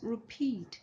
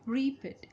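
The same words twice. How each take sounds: First: The stress is on the second syllable. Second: The stress is on the first syllable. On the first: The speaker calls it right. "The the stress is on peat" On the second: The speaker calls it wrong. "It's not repeat"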